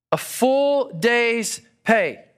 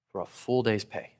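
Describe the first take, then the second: First: "A full day's pay" said slowly, higher and louder; stress on full day's pay. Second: Said in the usual way. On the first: Shown as a demonstration.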